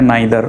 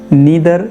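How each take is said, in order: First: The first vowel sounds like 'eye'. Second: The first vowel sounds like 'ee'. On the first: "हम लोग अक्सर क्या सुनते हैं नाइदर" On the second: "इसे नीदर भी कह सकते हैं"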